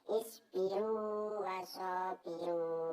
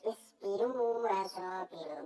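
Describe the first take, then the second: First: The long vowel is kept before the next w. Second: The two w sounds merge and the vowel length disappears. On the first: The speaker calls it right. "tapi harus baca isbiru wasabiru, harus ada panjangnya, harus baca idhar" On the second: The speaker calls it wrong. "nggak boleh kalau dibaca"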